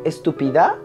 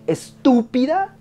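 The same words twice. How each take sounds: First: The stress is not on the second syllable. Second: The stress is on the second syllable. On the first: The speaker calls it wrong. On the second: The speaker calls it right. "Sí. ¿No? Es esdrújula"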